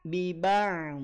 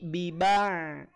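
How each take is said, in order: First: The final ain sound flows out slightly. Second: The final ain sound flows out slightly.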